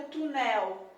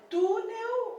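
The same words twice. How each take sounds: First: Túnel misstressed as tu-NÉL, open final vowel; stress on last syllable. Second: Túnel with a strong, long "tú"; stress on first syllable. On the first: Teacher offering a wrong option, túnel stressed on "nel". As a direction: throw the weight onto "nel" in túnel. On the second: Teacher offering the right option, túnel stressed on "tú". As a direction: punch the "tú" in túnel. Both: Shown as a demonstration. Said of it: "A sílaba mais forte é túnel".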